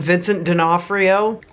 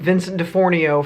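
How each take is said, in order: First: The surname is said as D'Onofrio. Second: The surname is said as DeFornio. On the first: The speaker calls it right. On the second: The speaker calls it wrong.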